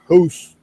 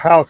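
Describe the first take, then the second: First: It is said in a Canadian accent. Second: It is said in a plain, general accent. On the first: "the Canadians when they talk, they say house" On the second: "instead of house"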